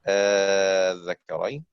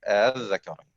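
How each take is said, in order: First: The hamza becomes a long drawn-out vowel. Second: The hamza is softened, halfway to a vowel. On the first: "أن تمد مدا لازما مع إبدالها ألف مد" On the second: "أو نسهلها فنقول الذكرين، هكذا"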